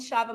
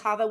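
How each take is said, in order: First: The name begins with a soft 'sh' sound. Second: The name begins with a throaty 'kh' sound. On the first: This is the family's version of the name. "have called me Shava my whole life" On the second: This is the original pronunciation of the name. "that is the actual pronunciation of it"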